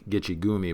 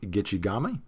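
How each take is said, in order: First: The third syllable is said with an 'oo' vowel. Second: The third syllable is said with an 'ah' vowel. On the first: The speaker calls it wrong. "That's a mispronunciation" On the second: The speaker calls it right. "they call Lake Gitchigami"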